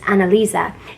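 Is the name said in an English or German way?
German. The name is said with a German pronunciation. The speaker calls it right. "they said it the German way"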